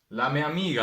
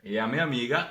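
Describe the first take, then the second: First: The article is pronounced with an l: la. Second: The article is pronounced without l: ea. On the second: "e a"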